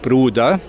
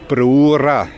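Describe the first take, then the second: First: Swabian dialect pronunciation of the word. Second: Neudorf dialect pronunciation with r instead of d. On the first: "Sonst in anderen schwäbischen Gemeinden" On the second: "im Neudorferischen"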